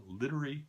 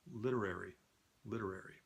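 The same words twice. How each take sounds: First: Said in the usual way. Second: "Literary" said quietly with every syllable sounded; careful practice pronunciation. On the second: Real, not acted. Practicing a tricky word to oneself, "Literary" softly sounded out in full. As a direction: softly rehearse "Literary", giving the "-ary" its full vowel. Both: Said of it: "I've got this".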